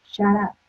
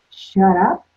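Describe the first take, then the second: First: Retold matter-of-fact "shut up"; blunt quoted reply. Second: Louder, questioning repeat with rising end; incredulous echo. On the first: Therapist answering an anxious client, blunt and understated. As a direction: say it evenly, closing the phrase. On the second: Retold or imitated. Client questioning her therapist's advice, mock incredulous. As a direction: throw it back as an offended question. Client echoes it, taken aback.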